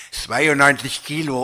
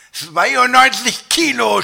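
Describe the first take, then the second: First: Said in the usual way. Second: High, loud, drawn-out cry of disbelief; shouting. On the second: A narrator's reading. Dieter throws the weight back at the scale, shouting. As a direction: shout it slowly in outrage. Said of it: "schrie ich".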